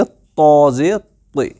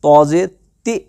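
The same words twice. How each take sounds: First: "तो ज़ेर ती" ending on a thick, full "ती", nearly "twi"; heavy emphatic t. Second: "तो ज़ेर ती" ending on a light, thin "ती"; thin t, mistaken. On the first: Teacher showing how we read it, emphatic t in "ती". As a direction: keep the t of "ती" heavy and full-mouthed. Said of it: "तो उसमें हम पढ़ेंगे". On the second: Teacher showing learners the mistake, thin t in "ती". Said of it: "नहीं पढ़ सकते हैं". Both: Shown as a demonstration.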